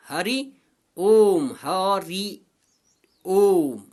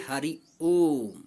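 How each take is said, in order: First: हरि ओम with the vowels held for three beats, ओम louder and long; drawn-out pluta vowels. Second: Said in the usual way. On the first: Shown as a demonstration. Hindi teacher showing students a three-mora pluta vowel, chanted and drawn out. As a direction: stretch the ओ in हरि ओम like a chant call. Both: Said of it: "तीन मात्रा का समय".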